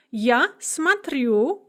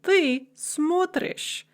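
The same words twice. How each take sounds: First: Смотрю said slowly, stressed on -рю; slow, louder model of смотрю as smat-RYU; stress on second syllable. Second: Смотришь said slowly, stressed on смо-; slow, higher model of смотришь as SMOT-rish; stress on first syllable. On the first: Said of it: "stress remains on the second syllable". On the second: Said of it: "shift to the first syllable". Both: Shown as a demonstration.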